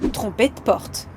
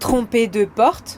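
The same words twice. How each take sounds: First: The E of 'de' is dropped. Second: The E of 'de' is clearly pronounced.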